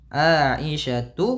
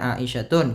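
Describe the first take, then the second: First: The name ends on a plain 'u' vowel. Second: The name ends with an added 'n' sound. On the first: The speaker calls it right. "Aisyatu bukan" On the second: The speaker calls it wrong. "bukan Aisyatun"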